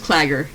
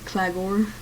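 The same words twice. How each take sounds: First: The stress falls on the first syllable. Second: The stress falls heavily on the second syllable. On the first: "It's just Claggor" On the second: "why do you accentuate gore?"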